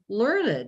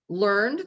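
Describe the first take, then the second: First: It is said as the adjective form. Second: It is said as the past-tense verb form. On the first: Someone is highly educated. "it's an adjective" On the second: Something was learned. "the past tense verb"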